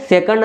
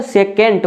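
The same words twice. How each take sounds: First: सेकंड with a short, weak second vowel, "SEK-und"; सेकंड as "SEK-und", the form to avoid; pronounced as "second". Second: सेकेंट with a full "e" in the second syllable, "se-KENT"; सेकेंट as "say-kent", both vowels full; pronounced as "secant". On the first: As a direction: say सेकंड like English "second", ending in a d. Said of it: "ना कि सेकंड नहीं बोलेंगे". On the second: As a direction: say सेकेंट ending in a crisp t, not d. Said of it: "सेकेंट बोलेंगे". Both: Shown as a demonstration.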